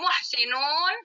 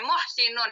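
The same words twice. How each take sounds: First: The vowel before the final n is long. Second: The vowel before the final n is short. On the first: It refers to many people. "Kalau muhsinun panjang, berarti pakai waw dan nun" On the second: It refers to one person. "Pendek baca muhsinun, itu tandanya tanwin"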